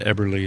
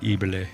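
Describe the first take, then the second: First: It is said with an American pronunciation. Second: It is said with a German-style pronunciation. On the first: This is how the speaker's family says it. "we say what we call it Eberle" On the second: This is how people in the name's home country say it. "they say like Ebele"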